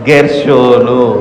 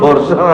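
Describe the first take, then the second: First: The first syllable has an e vowel. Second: The first syllable has an o vowel. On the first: The speaker calls it right. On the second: The speaker calls it wrong. "గొర్షోన్ గొర్షోన్ అనకండి"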